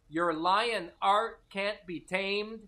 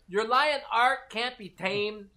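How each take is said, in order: First: The line is read at a slower pace. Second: The line is read at a faster pace.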